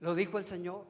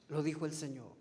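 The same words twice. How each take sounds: First: Said in the usual way. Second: Softer echo. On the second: Shown as a demonstration. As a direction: repeat it softer and lower, letting "Lo dijo el Señor" sink in. (eco más suave y más grave) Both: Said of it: "¿Recuerdan?".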